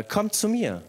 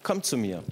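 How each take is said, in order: First: „Kommt zu mir.“ hoch angesetzt, „mir“ betont und fallend; eindringlicher Ruf. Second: Leise, fremd klingende Stimme; Stimme von Jesus. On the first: Acted. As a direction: predigend einladen, hoch auf „mir“. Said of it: "diese Stimme, die ruft uns". (der Prediger ruft die Gemeinde zu Jesus) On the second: Retold or imitated. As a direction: ruhig und nah, wie eine innere Stimme. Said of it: "da hörte sie eine Stimme". (eine Stimme ruft leise im Zimmer)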